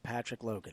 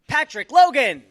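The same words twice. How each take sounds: First: It is announced quietly with low energy. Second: It is announced loudly with high energy. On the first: "let me set you up low energy then" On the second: "We set you up with all that energy"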